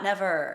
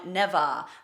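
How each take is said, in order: First: The word ends in a pronounced R sound. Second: The word ends in an open ah sound. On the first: The speaker calls it wrong. "not never" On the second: The speaker calls it right. "it's supposed to be sung never"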